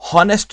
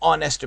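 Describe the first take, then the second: First: The word begins with an audible h sound. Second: The word begins directly with a vowel sound. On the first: The speaker calls it wrong. "हॉनेस्ट नहीं बोलते हम" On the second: The speaker calls it right. "एन ऑनेस्ट man कहते हैं"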